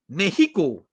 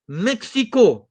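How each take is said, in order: First: The x is said as an h sound. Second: The x is said as a ks sound. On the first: The speaker calls it right. "X is pronounced like H. So the correct way to say is" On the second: The speaker calls it wrong. "most Malaysians will say Mexico. Wrong"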